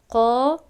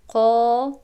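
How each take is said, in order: The two takes are said the same way.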